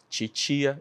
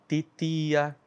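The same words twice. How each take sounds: First: "titia" como "tchitchia"; T chiado. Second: "titia" com T dental puro; T seco. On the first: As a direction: diga "titia" com os dois T em som de tch. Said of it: "tem gente que fala titia". ("titia" palatalizado, "tchitchia") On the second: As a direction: diga "titia" sem som de tch. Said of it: "Tem gente que fala titia". ("titia" com os dois T secos) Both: Shown as a demonstration.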